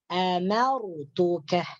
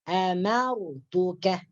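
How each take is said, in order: Both takes have the same delivery.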